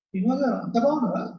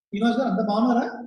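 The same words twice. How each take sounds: First: It is asked with a jealous, taunting modulation. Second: It is asked in a plain, sincere tone. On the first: The speaker resents how well the person is doing. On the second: The speaker genuinely asks after the person's wellbeing.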